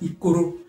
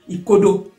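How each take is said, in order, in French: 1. La consonne du milieu est un son r. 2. La consonne du milieu est un son d. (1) "quand on va aller vite, ils font ikoro, le D, ils font R" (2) "quand ils veulent bien le prononcer, les bassins, ils disent ikodo"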